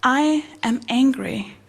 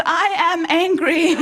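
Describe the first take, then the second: First: Slow, evenly spaced words; measured demonstration. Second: Higher, awkwardly emphatic declaration; mock-angry blurt. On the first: Acted. Psychologist showing a client how to voice anger, measured. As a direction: say it slowly and deliberately, without anger. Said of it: "you just say the words". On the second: Blurting the sentence to her punched friend, mock angry. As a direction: blurt the rehearsed sentence with forced feeling.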